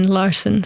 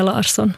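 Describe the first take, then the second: First: Larsen with a weakened second vowel; serious pronunciation. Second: Larsson said as a playful foreign variant; jokey pronunciation. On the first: Guest trying to sound serious, sober pronunciation of Larsen. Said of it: "låta liksom lite mer seriös". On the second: Guest joking about American names, playful pronunciation of Larsson. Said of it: "kan ju på skoj säga". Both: Shown as a demonstration.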